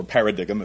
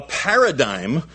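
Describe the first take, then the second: First: "paradigm" sounded out as written, para-DIG-um; joking alternative pronunciation. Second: Said in the usual way. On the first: Shown as a demonstration. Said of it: "if you prefer". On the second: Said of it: "or paradigm if you prefer".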